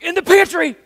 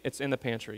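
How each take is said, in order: First: It is said in an annoyed, impatient tone. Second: It is said in a calm, patient tone.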